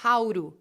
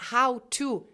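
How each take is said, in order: First: The t in 'to' is an r-like tap. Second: The t in 'to' is a clear t. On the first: The speaker calls it right. "esse T vai ficar com som de R" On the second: The speaker calls it wrong. "em vez de falar how to"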